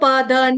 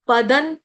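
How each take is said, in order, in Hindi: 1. शब्द पूरे ना अक्षर पर खत्म होता है। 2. शब्द बिना स्वर वाले न की ध्वनि पर खत्म होता है। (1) "इसको पदन ऐसे नहीं पढ़ना, पूरा न नहीं है" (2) "हलंत न"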